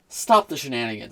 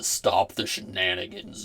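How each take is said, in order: First: It is said without Lord Roz's voice. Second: It is said in a Lord Roz impression.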